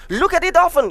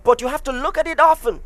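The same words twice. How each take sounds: First: "Look at it often" lifted higher and pushed louder, weight on "often"; preacher hammering "often" higher and louder; emphatic repeat. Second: Said in the usual way. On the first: Real, not acted. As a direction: drive "often" home with a higher, stronger push. Emphatic repeat of a key phrase.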